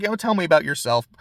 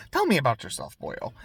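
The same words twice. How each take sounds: First: Said in the usual way. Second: Attempted Irish lilt, ending on a soft "boyo"; Irish accent. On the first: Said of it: "if I'm trying to do an Irish accent". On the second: Villain asks a boy about himself, attempted Irish accent. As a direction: try an Irish accent on a casual invitation. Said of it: "I'm trying to do an Irish accent".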